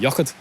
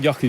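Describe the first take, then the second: First: The final D sound is pronounced. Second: The final D sound is left off. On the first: "You could say Yochid and pronounce the D" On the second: "but Yochi is more fun"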